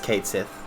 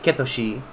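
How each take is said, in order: First: The name is said as two words, Kate Sith. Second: The name is said as three syllables, Ketoshi. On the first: "In English, it is Kate Sith" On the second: "In Japanese, it's Ketoshi"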